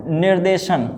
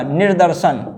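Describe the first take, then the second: First: निर्देशन with long de, nir-DE-shan; wrong form. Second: निर्दर्शन as nir-DAR-shan; correct form. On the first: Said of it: "ये नहीं होता है". (निर्देशन में दे की आवाज़) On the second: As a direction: sound the second r in निर्दर्शन. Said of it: "निर्दर्शन होता है". (निर्दर्शन में दर्, दूसरा र साफ़) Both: Shown as a demonstration.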